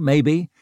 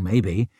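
First: Maybe with a questioning rise; rising maybe. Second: Maybe with a low falling tune. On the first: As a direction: lift the pitch on maybe. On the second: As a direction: drop the pitch on maybe. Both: A narrator's reading. Narrator musing on noise.

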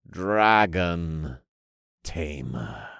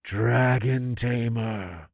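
First: Low, slow reverent pronouncement; intoning cult leader. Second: Slow, drawn-out droning chant; echoing cultists. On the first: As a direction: intone it in two solemn, sinking words. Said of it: "the leader of the dragon-worshipping cult intoned". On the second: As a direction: echo the leader like an entranced congregation. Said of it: "the rest of the cultists echoed". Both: A narrator's reading.

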